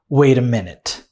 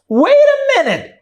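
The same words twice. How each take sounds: First: It is said in a calm, polite tone. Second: It is said in a sharp, confrontational tone. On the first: The speaker is politely asking someone to wait. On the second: The speaker is ready to fight.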